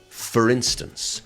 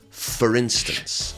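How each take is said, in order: First: The two words are squashed together. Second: The same.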